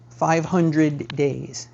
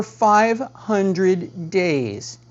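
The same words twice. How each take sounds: First: "five hundred days" drawn out slowly again, "hundred" stressed; stretched slow "five hundred days". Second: "five hundred days" drawn out very slowly, "five" stressed; stretched slow "five hundred days". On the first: Agent repeating the stale listing's age to sellers, "five hundred days" drawn out slowly. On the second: Agent telling sellers about a stale listing, "five hundred days" drawn out very slowly. Stressing how long the house sat. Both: Shown as a demonstration.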